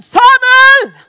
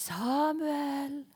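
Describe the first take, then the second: First: Much higher and louder shouted name; booming shout. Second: Hushed, far-off calling of a name; soft distant call. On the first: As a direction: bellow the name with full force. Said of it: "Eller var det sånn". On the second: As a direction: call the name softly from afar. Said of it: "Var det litt sånn der". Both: Shown as a demonstration.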